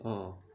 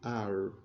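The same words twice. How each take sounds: First: It has a British accent, with the R dropped. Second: It has an American accent, with the R sounded.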